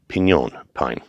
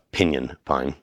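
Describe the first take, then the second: First: The first word sounds like 'piñon'. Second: The first word sounds like 'pinion'. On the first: The speaker calls it right. "I've said piñon" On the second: The speaker calls it wrong. "not pinion. It is not a pinyon pine"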